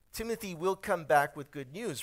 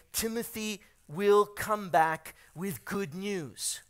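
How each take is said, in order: First: Said in the usual way. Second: Slow, spaced-out delivery, word by word; slow emphatic announcement. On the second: Real, not acted. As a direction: announce it deliberately, weighing each word. Announces news, then repeats it.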